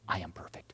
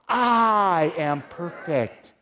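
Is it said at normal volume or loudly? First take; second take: normal; loudly. First: It is said at normal volume. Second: It is said very loudly.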